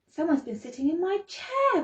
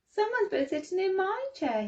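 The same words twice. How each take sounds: First: It is said in a great big voice. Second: It is said in a little voice. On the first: "roared Papa Bear in his great big voice" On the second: "he said in his little voice"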